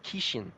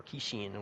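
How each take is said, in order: First: "Kishin" with a short, unstressed last syllable; alternate pronunciation. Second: "Kishin" with a clear "sheen" ending; alternate pronunciation. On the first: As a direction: say "Kishin" as KEE-shun. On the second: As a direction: say "Kishin" as kee-SHEEN, softly. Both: Shown as a demonstration. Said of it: "whatever you pronounce it".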